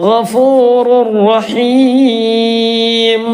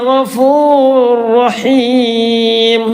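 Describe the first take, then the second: Both takes have the same delivery.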